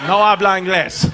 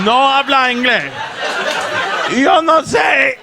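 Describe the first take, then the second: First: Lightly acted Spanish dodge; feigned non-comprehension. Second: Louder Spanish dodge, building to a yell; mock panicked protest. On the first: Son dodging dad's question in Spanish, mock non-comprehension. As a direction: play dumb in Spanish. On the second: Son desperately dodging dad's question, loud mock protest. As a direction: insist you don't understand, building louder. Feigning no English, escalating.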